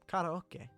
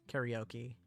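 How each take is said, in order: First: It is said with a Japanese pronunciation. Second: It is said with an American pronunciation.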